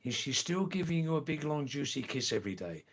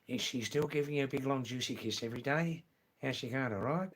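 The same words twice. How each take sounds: First: Said in the usual way. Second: Quick, run-together Australian question; original Australian accent. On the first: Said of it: "I'll say it slowly this time". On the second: Shown as a demonstration. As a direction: rattle it off in broad Australian. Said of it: "In original Australian".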